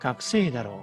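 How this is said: The pitch falls at the end. The speaker is guessing. "끝을 내려주는 상태로"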